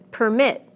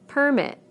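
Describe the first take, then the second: First: The stress is on the second syllable. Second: The stress is on the first syllable.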